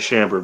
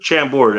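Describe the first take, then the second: First: The word ends with a weak 'bered' sound. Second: The word ends with a full 'bord' sound. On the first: It is the easier, lazier way to say it. "I'm lazy, so I'll just say chambered" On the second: It is the fuller, more careful way to say it. "but chambord, yeah, that works too"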